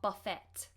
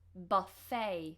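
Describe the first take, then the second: First: The last syllable does not end in 'ay'. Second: The last syllable ends in an 'ay' sound. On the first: The speaker calls it wrong. "not buffet" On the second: The speaker calls it right. "Almost like it's spelt with an A Y at the end"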